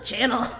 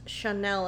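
First: It is pronounced like the English word channel. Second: It is pronounced like shuh-nel. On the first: The speaker calls it wrong. "I always thought it was channel" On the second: The speaker calls it right. "it's Chanel"

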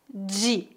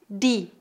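First: It is said in a southeastern Brazilian accent. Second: It is said in a northeastern Brazilian accent.

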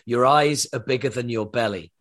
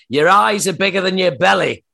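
First: It is said in a more standard accent. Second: It is said in a broad Yorkshire accent.

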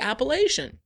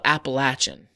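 First: It uses the northern regional pronunciation. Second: It uses the southern regional pronunciation. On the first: This is how people in the north say it. "We say Appalachian" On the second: This is how people in the south say it. "They call it Appalachian"

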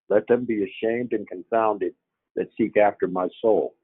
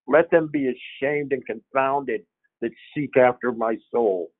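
First: It is read flatly, without inflection. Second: It is read with strong, varied inflection. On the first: It merely states the words. The speaker calls it wrong. "without inflection, just states" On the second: It conveys the writer's intended feeling. The speaker calls it right. "This is how he wrote it"

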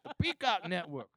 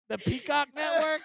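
First: It is said boldly and confidently. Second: It is said tentatively, like a question.

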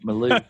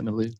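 First: It is said in a Texan accent. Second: It is said in a neutral accent. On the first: "it like a Texan" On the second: "is that how you say that"

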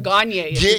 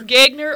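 First: The name is said in a French way. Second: The name is said in an American way. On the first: "feeling French" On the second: "That is the Montana"

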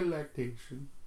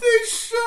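First: The word is said quietly. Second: The word is said loudly.

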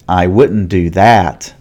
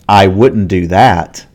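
The two takes are said the same way.

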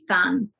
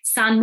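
First: The word begins with a lisped th sound. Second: The word begins with a clear s sound.

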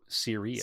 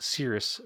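First: It is said as the star name Sirius. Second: It is said like the cloud word cirrus. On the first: The speaker calls it right. "Nope, Sirius" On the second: The speaker calls it wrong. "have called it Cirrus forever. ... like a cloud"

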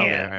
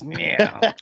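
First: The name is said calmly and plainly. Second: The name is said with harsh anger.

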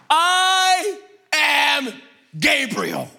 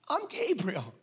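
First: It is said forcefully, like an exclamation. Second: It is said mildly, without force.

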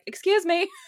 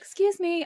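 First: It is said boldly and commandingly. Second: It is said meekly and timidly.

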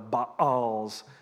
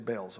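First: The word is drawn out into a longer form. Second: The word is said in a short, clipped form. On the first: "that takes too long to say" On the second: "so we'll just say Baals"

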